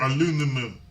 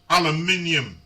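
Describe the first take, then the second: First: It is said with an American pronunciation. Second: It is said with a British pronunciation.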